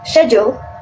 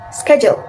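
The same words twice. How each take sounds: First: It is said with a British accent. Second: It is said with an American accent. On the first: "In British, we say" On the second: "In American, we say"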